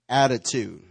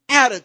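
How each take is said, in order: First: The word is said in a neutral, plain way. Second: The word is said with sassy, emphatic attitude. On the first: "Say it with me" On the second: "Say attitude with attitude"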